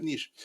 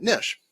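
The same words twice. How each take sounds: First: "Niche" with a long ee, like "neesh"; long-vowel niche. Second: "niche" with a short i, like "nish"; short-vowel niche. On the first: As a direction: say "Niche" to rhyme with leash, higher and softer. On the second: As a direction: say "niche" to rhyme with dish. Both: Real, not acted. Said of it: "right? Niche".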